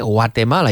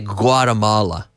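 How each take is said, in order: First: The name is said with a Spanish pronunciation. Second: The name is said with an English pronunciation. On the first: "Did I say that right, Tino, today?" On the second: "Because in English we say"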